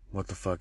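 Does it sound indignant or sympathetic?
sympathetic. It sounds sympathetic, concerned that business is bad.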